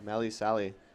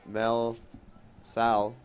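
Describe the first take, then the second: First: The names end with a final vowel sound. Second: The names end without a final vowel sound. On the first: The speaker calls it right. "I believe it's Melly Sally" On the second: The speaker calls it wrong. "that was the French in me coming out. You don't pronounce that E at the end"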